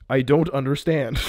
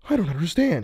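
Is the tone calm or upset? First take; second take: calm; upset. First: It is said in a very calm way. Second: It is said in an upset, distressed way.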